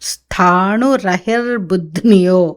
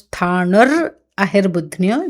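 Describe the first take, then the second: First: The two words are linked into one unit. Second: The two words are said as separate units. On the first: "ఇప్పుడు రెండు కలిపి" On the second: "ఇంతకుముందు ఏం చదివాము?"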